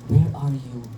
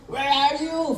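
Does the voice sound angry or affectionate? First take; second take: affectionate; angry. First: It is said in a warm, affectionate tone. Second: It is said in an angry, harsh tone. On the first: A loving father is calling for his child. The speaker calls it right. "it was asked with affection. As if Papa is calling his son" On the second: God is furious with the one he is calling. The speaker calls it wrong. "Galit, na parang umuusok ang ilong, ganun. ... Full of anger"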